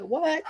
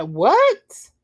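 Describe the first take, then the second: First: Soft high rising sass; sassy what. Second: High rising outraged what; indignant what. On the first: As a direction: roll your neck on it. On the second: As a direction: throw it back like a hair-flip. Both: Acted. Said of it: "put that hair roll in it".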